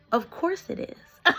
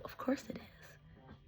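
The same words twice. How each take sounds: First: Slow, high-pitched delight; delighted exclamation. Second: Slow, knowing whisper; whispered aside. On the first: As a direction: say it out loud, high and drawn out. Repeats the whispered line out loud. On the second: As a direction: whisper it to yourself, drawn out. Repeats aside, first whispered, then loud. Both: Real, not acted.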